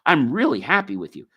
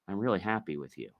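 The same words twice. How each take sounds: First: The tone sounds warm and sincerely happy. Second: The tone sounds displeased and insincere. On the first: The speaker is genuinely happy. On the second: The speaker is not actually happy.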